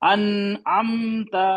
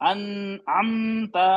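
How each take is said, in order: Both takes have the same delivery.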